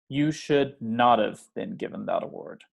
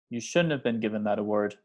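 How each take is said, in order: First: Not is said fully and strongly stressed. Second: Not is contracted and unstressed in shouldn't.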